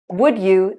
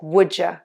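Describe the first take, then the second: First: Both words are said fully and clearly. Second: The words blend into a quick 'would ya'.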